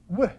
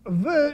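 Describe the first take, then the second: First: The sound is made with both lips rounded. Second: The sound is made with teeth on lip. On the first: "You know how they pronounce the vav? W, not v" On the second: "you use your teeth with your bottom lip. That's the way we pronounce it"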